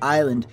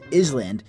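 First: The S sound is silent in the middle. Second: The S sound is pronounced in the middle. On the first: The speaker calls it right. "the S is silent" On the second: The speaker calls it wrong. "I had to sound it out"

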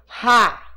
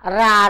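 First: The r is scraped roughly in the throat. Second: The r is a light tap of the tongue. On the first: "Ele dá um arranhãozinho na voz, né? Na garganta, assim" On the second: "como ele está escrito entre vogais... ele tem aquela diferençazinha no som"

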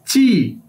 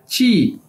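First: It starts with an unvoiced ch-like sound. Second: It starts with an unvoiced ch-like sound.

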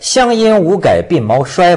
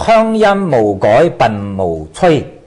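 First: The line is read with Mandarin pronunciation. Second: The line is read with Cantonese pronunciation. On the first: The poem's lines do not rhyme. "这个都不押韵" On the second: The poem's lines rhyme. "但是你用广东话一念"

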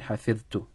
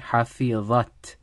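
First: The word ends with a -tu sound. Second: The word ends with an -at sound. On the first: The speaker did the memorizing herself. "When she was speaking, she said حفظت" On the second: She, someone else, did the memorizing. "In our answer, we're going to say حفظت"

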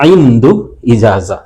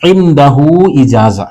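First: The first word is shortened to two syllables. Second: The first word is said in full, three syllables.

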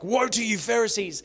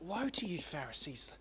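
First: It is said in a harsh, condemning tone. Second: It is said in a pleading, gentle tone.

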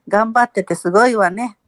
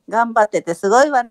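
First: It is said fairly flat, with little intonation. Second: It is said livelier, with more pitch movement. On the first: "今のはかなり元気だって言ったのに" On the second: "もっと抑揚をつける"

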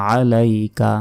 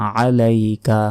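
The two takes are said the same way.

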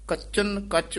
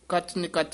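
First: The phrase is divided as kachan, then kach. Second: The phrase is divided as kach, then nikach. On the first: The speaker calls it right. "ਇਹ ਪਾਠ ਕੱਚਨ ਕੱਚ ਉਚਾਰਨ ਕਰਨਾ" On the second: The speaker calls it wrong. "ਕੱਚ ਨਿਕੱਚ ਨਹੀਂ ਕਹਿਣਾ ਹੈ"

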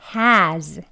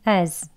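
First: Said with h and a full stressed vowel. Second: Said without h, with a weak schwa. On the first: "strong한 발음 먼저" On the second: "앞에 H 소리가 없고요. 슈아 어 소리 어 하고 z로 그냥 끝나는"

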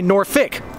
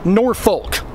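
First: The second syllable is reduced to fik. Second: It is said as spelled, ending in folk. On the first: Most local people say it this way. "Most people, like me, say Norfolk, F-I-K" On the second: Hardly anyone local says it this way. "almost nobody around here says Norfolk"

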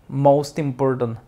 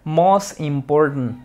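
First: The T of most links into important. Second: The T of most is dropped before important. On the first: The speaker calls it right. "Aquí vas a ligar la T con la I" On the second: The speaker calls it wrong. "No digas most important"

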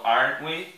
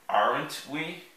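First: The T in aren't is barely pronounced. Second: The T in aren't is clearly pronounced. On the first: The speaker calls it right. "Eles falam aren't we" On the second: The speaker calls it wrong. "Para você entender melhor, eu vou falar"

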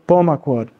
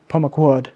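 First: The stress is on the third-to-last syllable. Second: The stress is on a different syllable. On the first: The speaker calls it right. "the stress is on the third to last syllable" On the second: The speaker calls it wrong. "not Pomaquod"

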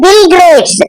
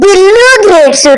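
First: The first word ends without an added vowel. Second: The first word ends with an added vowel. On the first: The speaker calls it right. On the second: The speaker calls it wrong.

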